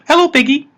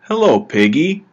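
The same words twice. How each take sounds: First: Much higher, louder squeaky cartoon pig echo; high cartoon pig repeating the man's hello; funny pig voice. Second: A lightly raised, friendly hello to a pet app; a hint of a man cooing at his phone pet; brother greeting the pig. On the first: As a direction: parrot the greeting back as a silly virtual pig. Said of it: "in a funny voice". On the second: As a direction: greet the pig app a bit brightly, barely acted. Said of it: "This brother will say".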